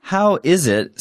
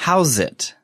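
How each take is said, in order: First: "How is it" with "is" said as its own word; full separate words. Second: "How's it" with "is" shrunk to a z sound; casual contraction. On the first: Teacher shows the careful form, "How is it" in full. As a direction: keep "is" apart from "How", uncontracted. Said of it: "sounds like". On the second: Teacher shows casual speech, "How's it" pushed together. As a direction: run "How's it" together as two syllables. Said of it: "when spoken casually". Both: Shown as a demonstration.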